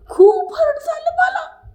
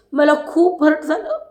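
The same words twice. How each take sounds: First: Mock crying, very high and drawn out; hammed-up squeaky sob through the words; Deepali's tearful wail. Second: Imitating hurt, pitch climbing; mock upset, lifting higher toward tears; Deepali's hurt plea. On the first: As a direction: wail it slowly like a melodramatic crybaby. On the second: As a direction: lightly act out wounded feelings. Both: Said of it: "असं ती म्हणत होती दीपाली".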